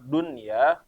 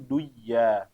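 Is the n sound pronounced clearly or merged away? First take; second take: clearly; merged. First: The n sound is pronounced clearly. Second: The n sound is merged away. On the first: The speaker calls it right. "dibacanya jelas, izhar" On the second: The speaker calls it wrong. "jangan dibaca menjadi duya"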